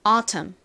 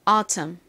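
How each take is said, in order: First: The middle t is a clear, crisp t. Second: The same.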